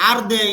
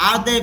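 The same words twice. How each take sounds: Both takes have the same delivery.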